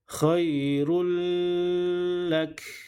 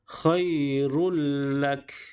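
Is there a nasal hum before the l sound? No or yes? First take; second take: yes; no. First: The sound is held with a nasal hum. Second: The sound merges into l without nasal hum. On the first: The speaker calls it wrong. "Tidak boleh baca" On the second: The speaker calls it right. "dimasukkan kepada huruf lam tetapi tidak ada gunnah ataupun dengung"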